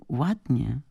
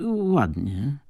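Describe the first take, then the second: First: High, savoured echo of the compliment; delighted, pitched-up swoon; delighted quote. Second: Restrained, hesitant compliment; polite and held back; reserved. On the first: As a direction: repeat it dreamily, thrilled. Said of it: "zachwyciła się Tatiana". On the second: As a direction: say it guardedly, pitched a little up. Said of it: "odpowiedział Don Stipan powściągliwie". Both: A narrator's reading.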